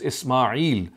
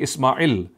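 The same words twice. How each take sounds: First: The vowel before the final l is long. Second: The vowel before the final l is short. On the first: The speaker calls it right. "the ya is always there" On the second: The speaker calls it wrong. "You will never find the pronunciation to be Ismail"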